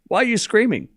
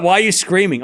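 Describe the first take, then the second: First: Laughing breathy whisper. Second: Said in the usual way. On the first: Shown as a demonstration. Repeating the chat's question in a whisper.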